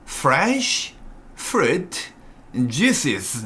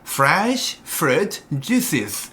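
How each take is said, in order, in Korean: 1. 이 구문은 아주 천천히 말했어요. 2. 이 구문은 보통 속도로 말했어요. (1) "천천히요" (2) "이렇게까지 천천히 말할 필요는 없지만"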